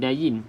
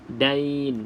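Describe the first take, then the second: First: The ya carries an i vowel, giving two syllables. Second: The ya has no vowel, giving one syllable. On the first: The speaker calls it wrong. "itu dain, D A Y I N" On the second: The speaker calls it right. "dia audain, dain"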